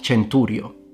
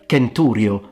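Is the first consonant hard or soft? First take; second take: soft; hard. First: The first consonant is a soft sound. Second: The first consonant is a hard k sound. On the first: The speaker calls it wrong. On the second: The speaker calls it right. "pronounced like a K"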